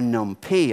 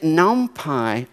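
First: The word ends with a 'pee' sound. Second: The word ends with a 'pie' sound.

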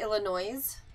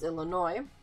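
First: The final S is pronounced. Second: The final S is silent. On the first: The speaker calls it wrong. "this is going to hurt me to say it, but when they say Illinois" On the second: The speaker calls it right. "the S is silent first of all, so it's Illinois"

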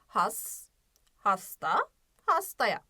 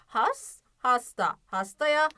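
First: The words are read slowly with pauses between. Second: The words are read at a moderately quick pace.

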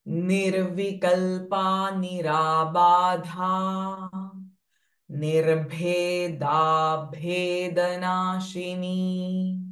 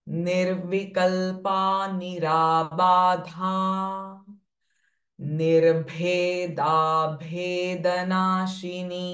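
Both takes have the same delivery.

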